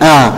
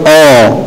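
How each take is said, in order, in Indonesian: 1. Bunyi vokalnya tipis dan terbuka, seperti a. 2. Bunyi vokalnya tebal dan gelap, seperti o. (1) "harus ditipiskan" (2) "tidak tebal oh"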